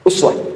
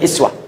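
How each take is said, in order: First: The word begins with the vowel u. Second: The word begins with the vowel i. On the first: This is the reading transmitted from Asim. "dibaca dengan dhammah u" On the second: This is the reading transmitted from Nafi'. "bisa dibaca dengan kasrah i"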